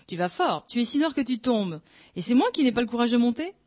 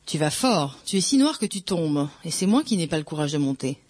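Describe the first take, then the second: First: Higher, incredulous retort rising on the last clause; indignant question. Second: Said in the usual way. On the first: A narrator's reading. Priest retorting to his taunting friend, indignant disbelief. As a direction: throw it back as an offended question.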